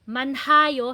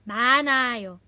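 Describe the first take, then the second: First: An h sound is heard in the middle. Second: No h sound is heard in the middle. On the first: The speaker calls it wrong. "hindi na siya manhayo" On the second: The speaker calls it right. "Silent po talaga siya"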